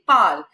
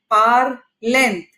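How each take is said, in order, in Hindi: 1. अंत मौन है, इसलिए केवल एक अक्षर बनता है। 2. अंत एक अतिरिक्त अक्षर की तरह बोला जाता है। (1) "It's only pal" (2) "It's no word in French"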